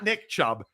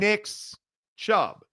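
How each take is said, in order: First: The first name ends without an s sound. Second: The first name ends in s, then a pause. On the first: The speaker calls it wrong. "Not Nick Chubb" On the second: The speaker calls it right. "the possessive Nick's Chubb. a little pause"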